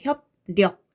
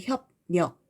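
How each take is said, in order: First: The second syllable starts with an l sound. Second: The second syllable starts with an n sound. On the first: "이렇게 발음하려면 발음이 좀 어렵죠" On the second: "르를 먼저 느로 바꿔서 발음해"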